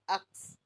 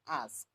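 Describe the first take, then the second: First: "ux" with k before s, as "aks"; "ux" as a mistaken "aks"; mispronounced "ask". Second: Said in the usual way. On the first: Shown as a demonstration. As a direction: say "ux" for "ask", sounds swapped. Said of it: "because she said". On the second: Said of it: "instead of".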